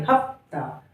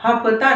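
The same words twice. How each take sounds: First: Said in the usual way. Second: हफ्ता with a vowel after फ; full middle syllable. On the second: Shown as a demonstration. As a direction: say हफ्ता as "ha-pha-taa". (हफ्ता में फ को पूरा बोलते हुए) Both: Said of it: "हफ्ता नहीं".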